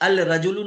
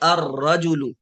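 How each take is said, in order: First: The 'l' is pronounced before the 'r'. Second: The 'l' is silent, merged into a doubled 'r'. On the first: The speaker calls it wrong. "नहीं पढ़ेंगे" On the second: The speaker calls it right. "लाम में रा में मिलाएंगे और लाम यहाँ साइलेंट होगा"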